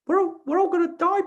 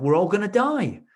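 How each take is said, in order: First: Very high squeaky cartoon mouse; high cartoon mouse voice, loud and silly; Mickey Mouse voice. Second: Mock panic, high and loud; hammed-up doom cry; panicked. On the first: Shown as a demonstration. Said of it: "in Mickey Mouse's voice". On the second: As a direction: act out the panic. Client retelling panicked inner voice.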